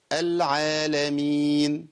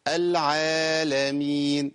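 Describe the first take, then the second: First: العالمين with alif held two counts; correct madd. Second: العالمين with alif stretched too long; overlong madd. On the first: Teacher showing students the right vowel length. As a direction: draw out the aa of العالمين smoothly. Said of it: "أقولها إزاي؟". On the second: Teacher imitating people who lengthen vowels too much. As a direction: overstretch the aa in العالمين. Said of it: "في ناس بتقولها إزاي؟". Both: Shown as a demonstration.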